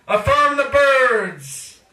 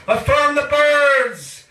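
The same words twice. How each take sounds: The two takes are said the same way.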